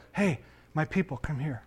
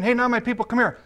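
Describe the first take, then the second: First: Soft, lower summons; tender, quiet invitation; calling by new nickname. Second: High-pitched summons; brisk high call-over; calling by old nickname. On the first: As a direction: gently call them over, voice dropped. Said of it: "You change their nickname". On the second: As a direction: call the child over, voice lifted. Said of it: "So instead of saying". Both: Acted.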